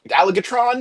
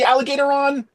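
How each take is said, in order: First: The name ends in 'tron' with no extra syllable. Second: The name has an extra 'o' syllable before 'ron'. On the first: "I pronounce it allig, Alligatron because I think it sounds better" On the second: "I don't know if it's actually Alligatoron"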